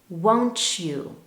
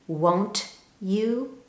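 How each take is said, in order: First: The t and y blend into 'ch'. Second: The t and y sounds stay separate.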